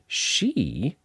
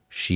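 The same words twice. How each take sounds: First: The word is strong and high in pitch. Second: The word is soft and low in pitch. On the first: It starts the part about her lies. "That she is really strong and high" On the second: It continues the same part. "After that, it's way down low"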